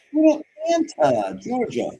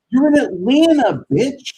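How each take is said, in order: First: High, put-on mocking voice on "You're in Atlanta". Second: Loud, high yelled taunt; shouted taunt. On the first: Repeating it in a put-on voice. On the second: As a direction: yell "You're in Atlanta" high and loud, hammering it. Yelling at a streamer. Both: Real, not acted.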